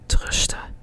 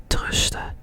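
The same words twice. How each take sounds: The two takes are said the same way.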